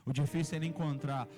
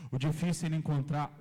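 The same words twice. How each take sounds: The two takes are said the same way.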